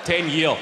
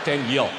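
First: "Ten year" with no plural s; a flat Glasgow "Ten year"; Glasgow usage. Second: "Ten year", singular, no s; "Ten year" said the local way; plain Glasgow "Ten year"; Glasgow usage. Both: Shown as a demonstration. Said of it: "You don't say years".

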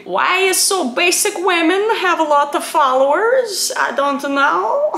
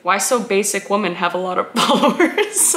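First: High, slow broken-English put-on accent; mock broken English. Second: Said in the usual way. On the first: Reading out a viewer's question, mock broken-English accent. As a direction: exaggerate broken English, pitched up. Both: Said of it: "It's the broken English for me".

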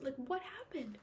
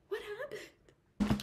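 First: Said in the usual way. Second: High, slow, drawn-out disbelief; a reader fed up with the book's characters; exasperated outburst. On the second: Real, not acted. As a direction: stretch it out in baffled frustration. Repeats the question, exasperated.

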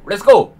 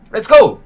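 First: Said in the usual way. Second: High, loud burst of excitement; excited shout. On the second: Real, not acted. Tour host kicking things off with an excited high shout. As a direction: launch the tour with a big cry.

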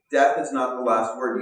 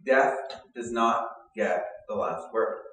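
First: "Death is not the last word" repeated louder, "Death" hit hardest; louder restatement. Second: Slow, weighty: "Death does not get the last word"; stressed promise. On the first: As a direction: drive it home, "Death" punched. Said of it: "That's the promise". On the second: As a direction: land each word slowly, "Death" leading. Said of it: "And the promise is this". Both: Shown as a demonstration.

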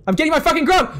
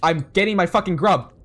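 First: High, loud defiant yell on "grub"; louder, higher yelled repeat of the line; determined shout. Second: Said in the usual way. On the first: Real, not acted. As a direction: shout "I'm getting my fucking grub" as a battle cry.

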